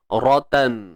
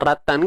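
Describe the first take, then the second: First: The r is said thick, with a heavy vowel. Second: The r is said thin, with a light vowel. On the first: The speaker calls it right. "Ra ni pastikan tebal" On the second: The speaker calls it wrong. "tak maulah ratan"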